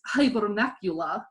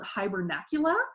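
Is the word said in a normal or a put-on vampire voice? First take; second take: vampire voice; normal. First: It is said in a theatrical vampire voice. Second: It is said in an ordinary speaking voice.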